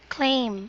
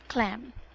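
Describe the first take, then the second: First: The vowel is a long 'ay' sound. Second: The vowel is a short 'a' sound. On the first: The speaker calls it right. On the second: The speaker calls it wrong.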